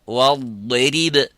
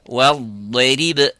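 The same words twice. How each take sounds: No difference in how they are said.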